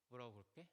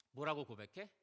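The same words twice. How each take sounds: First: "뭐라고 고백해?" asked again much softer and lower, almost under the breath; soft, drawn-in rhetorical question; hushed repeat. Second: Said in the usual way. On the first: Acted. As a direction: drop the voice right down for the repeat.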